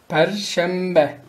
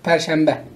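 First: The word is said at a slower pace. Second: The word is said at a faster pace.

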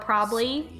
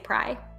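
First: The word is said in full, three syllables. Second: The word is squeezed into one short syllable. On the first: The accent is toned down. "When I try to tone it down, I say probably" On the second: The accent is at its strongest. "when I'm really on one, I say pry"

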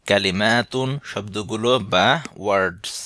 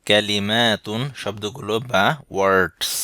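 The two takes are said the same way.

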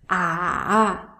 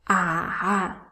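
First: The pitch dips low, then rises. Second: The same.

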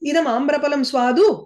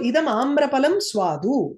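First: The voice rises at the end like a question. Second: The voice falls at the end like a statement. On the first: It asks whether the mango is sweet. "Cock அர்த்தேன பிரஷ்னஹா கிரியதே" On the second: It states that the mango is sweet. "it is a statement"

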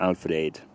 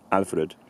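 First: The final syllable has a full, unreduced vowel. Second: The final syllable has a reduced, weak vowel. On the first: "you could take the spelling at face value and pronounce it something like Alfred" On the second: "you could reduce the vowel in the final syllable and just go for Alfred"

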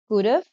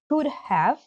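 First: The word 'have' is reduced to a 'v' sound. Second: The word 'have' is said in full.

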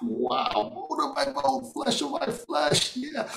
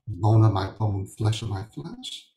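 First: It is said in an excited tone. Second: It is said in a flat, plain tone.

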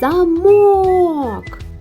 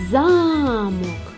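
First: The stress is on the second syllable. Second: The stress is on the first syllable. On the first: "значить наголошений другий склад" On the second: "Це значить, що перший склад наголошений"

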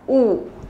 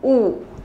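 First: The letter is said like 'oo'. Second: The same.

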